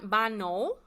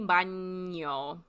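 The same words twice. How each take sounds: First: The middle consonant is a plain n sound. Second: The middle consonant is an ny sound. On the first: The speaker calls it wrong. "it's not baño" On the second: The speaker calls it right. "That sounds like a N Y A combination"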